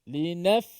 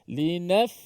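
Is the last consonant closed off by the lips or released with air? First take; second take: released; released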